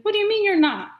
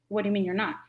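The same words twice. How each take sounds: First: Loud, high-pitched disbelieving question; incredulous challenge. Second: Said in the usual way. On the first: Retold or imitated. Friend challenging the Caribbean woman's denial, incredulous. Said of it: "He's like".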